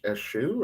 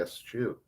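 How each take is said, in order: First: "eschew" said as "eh-SHOO"; soft SH in "eschew", no T sound. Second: "eschew" said as "ess-CHOO". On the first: Host unsure of a word, tries "eschew" as "eh-SHOO". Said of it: "Is it esch-, eschew or is it eschew?". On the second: Host unsure of a word, tries "eschew" as "ess-CHOO". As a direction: separate S then CH in "eschew". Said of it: "or is it eschew?". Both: Shown as a demonstration.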